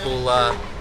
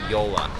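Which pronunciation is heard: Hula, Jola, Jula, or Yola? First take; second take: Hula; Yola. First: It begins with an H sound. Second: It begins with a Y sound. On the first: The speaker calls it wrong. "it's not Hula" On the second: The speaker calls it right. "It's actually Yola"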